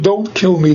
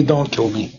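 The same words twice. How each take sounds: First: Higher, pleading cry not to be killed; mock desperate begging; desperate plea. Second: Softer, lower fading repeat of the plea; hushed mock whimper. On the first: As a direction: beg for your life, imitating the worshipper. Congregants begging God. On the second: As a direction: let the begging die away.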